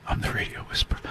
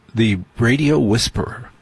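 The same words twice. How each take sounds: First: Breathy unvoiced whisper. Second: Said in the usual way. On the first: Shown as a demonstration. Radio host whispers his own nickname to listeners. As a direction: whisper it like a secret.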